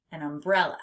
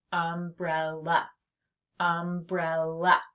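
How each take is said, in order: First: Said in the usual way. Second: "Umbrella" slowly as um, brel, la; teacher sounding out "Umbrella"; split into syllables. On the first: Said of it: "What is this?". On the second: Shown as a demonstration. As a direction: leave gaps between the three beats of "Umbrella". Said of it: "I hear three syllables".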